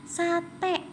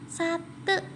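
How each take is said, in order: First: Sate ending in a clear é, sa-té; sate with e taling. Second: Sate with a weak e at the end, slowly; sate said wrongly. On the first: Teacher showing pupils the right sate, clear. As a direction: end sate on a bright open é. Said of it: "ini e teleng, dibacanya". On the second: Teacher demonstrating the wrong sate to pupils, slow. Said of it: "bukan sate". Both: Shown as a demonstration.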